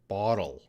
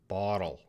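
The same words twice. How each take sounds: First: The middle consonant sounds like a D. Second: The same.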